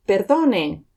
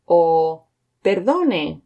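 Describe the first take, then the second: First: Said in the usual way. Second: Perdone stretched out slowly, each syllable clear; drawn-out teaching take of perdone; slow and careful. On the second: Shown as a demonstration. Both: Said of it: "Let's have a look at them again".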